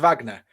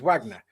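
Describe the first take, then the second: First: The name is given a German pronunciation. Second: The name is given a non-German pronunciation. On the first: It refers to the German composer. "the musician is Wagner because it's German" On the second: It refers to the Russian group. "This is a Russian group, so it's Wagner"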